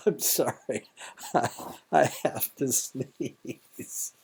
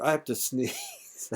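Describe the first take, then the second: First: Slow, laughing through a held sneeze. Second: Said in the usual way. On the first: Real, not acted. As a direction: giggle while fighting a sneeze.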